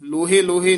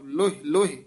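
First: Each word ends with an added e vowel. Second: Each word ends without any added vowel. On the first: The speaker calls it wrong. "ਲੋਹੇ ਲੋਹੇ ਨਹੀਂ ਕਹਿਣਾ" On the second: The speaker calls it right. "ਇਸੇ ਤਰ੍ਹਾਂ ਹੀ ਸ਼ੁੱਧ ਬੋਲਣਾ ਹੈ"

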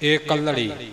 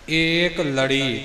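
First: The word is said joined, without a break. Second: The word is broken into two parts. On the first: The speaker calls it right. "ਏਕਲ ਦੇ ਨਾਲ ੜੀ ਨੂੰ ਸੰਬੰਧਿਤ ਕਰਕੇ ਏਕਲੜੀ" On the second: The speaker calls it wrong. "ਕਈ ਅਗਿਆਨੀ ਇਉਂ ਕਰ ਜਾਂਦੇ ਨੇ"

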